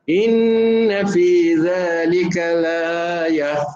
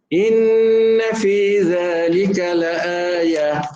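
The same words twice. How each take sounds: The two takes are said the same way.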